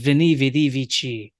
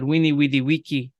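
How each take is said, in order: First: Each word begins with a V sound. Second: Each word begins with a W sound. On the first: This is the modern way people like to say it. "with a nice Italian accent" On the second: This is the older classical pronunciation. "classical pronunciation would probably lend us "Weenie weedy wiki.""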